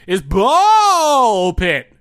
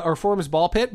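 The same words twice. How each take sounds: First: Slow, loud, drawn-out announcer boom. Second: Said in the usual way. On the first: Shown as a demonstration. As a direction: announce it like a game-show host. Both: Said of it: "Oh, I'm supposed to say".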